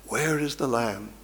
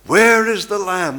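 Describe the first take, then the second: First: Much softer, asking where is the lamb; hushed question. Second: Higher and louder, stress on Where; ringing cry. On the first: Preacher voices the old testament cry, softly. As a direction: murmur the plea. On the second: Preacher voices the old testament cry, loudly. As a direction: call it out as a plea. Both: Shown as a demonstration.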